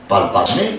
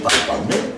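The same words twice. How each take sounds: First: Said in the usual way. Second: Whispered repeat, breath only. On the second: Acted. Christ repeating to the apostles, whispered. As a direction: let the second palpadme fall to a whisper.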